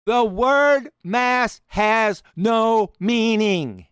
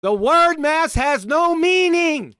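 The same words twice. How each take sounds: First: Very slow, weighted "word"; "The word mass has no meaning" said very slowly, leaning on "word"; slow repeat. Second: Slow, loud, high stress on "word"; "the word mass has no meaning" with "word" hit hard and high, slowed right down; strong emphasis. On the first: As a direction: drag it out for effect. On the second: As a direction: punch every word, slowly. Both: Shown as a demonstration. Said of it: "he's strongly emphasizing it".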